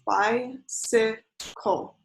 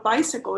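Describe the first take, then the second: First: "Bicycle" drawn out slowly, each syllable separated: bi-cy-cle; slow syllable count. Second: Said in the usual way. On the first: Shown as a demonstration. Teacher to viewers counting on fingers, "Bicycle" slow and split into syllables. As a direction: stretch "Bicycle" so each beat can be counted. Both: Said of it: "you can count on your fingers".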